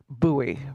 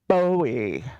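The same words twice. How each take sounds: First: The name is said the local town way. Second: The name is said the usual nationwide way. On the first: This is how the town itself is referred to. "refer to the town, and it is pronounced Bowie" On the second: This is how the name is said elsewhere in the country. "In the rest of the country, those letters, B O W I E, are pronounced Bowie"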